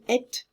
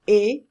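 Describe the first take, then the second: First: A t sound is heard at the end. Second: Only a vowel is heard, no t sound. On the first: The speaker calls it wrong. "Don't pronounce the T. When you say et, it doesn't mean anything" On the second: The speaker calls it right. "as if it was A, like this"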